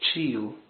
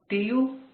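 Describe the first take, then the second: First: The T is said the Rio de Janeiro way. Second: The T is said the northern Brazilian way. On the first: The speaker calls it wrong. "como nós aqui no estado do Rio de Janeiro" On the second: The speaker calls it right. "O T é o T do nortista"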